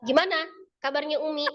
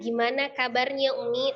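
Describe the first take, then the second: First: It is said with strong, forceful emphasis. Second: It is said evenly, without strong emphasis. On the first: It carries a different meaning. "kan itu kan beda arti kan?" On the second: It is a plain, neutral question. "Itu kan stabil tuh"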